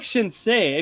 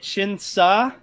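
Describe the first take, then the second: First: The last syllable ends in a 'say' sound. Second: The last syllable ends in a plain 'sah' sound. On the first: The speaker calls it right. "but I like Shinsei" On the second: The speaker calls it wrong. "I didn't like it when I read it because I I was reading it Shinsa"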